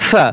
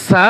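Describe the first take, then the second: First: সা with a soft th-like opening; soft consonant. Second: সা with a crisp, hissed s; sharp s sound. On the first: Teacher contrasting two letters for learners, soft consonant. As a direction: soften the s of সা towards th. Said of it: "এটা নরম করে". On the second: Teacher contrasting two letters for learners, sharp s. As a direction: start সা on a plain sibilant s. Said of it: "এটা নরম করে, এটা, এটা সা". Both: Shown as a demonstration.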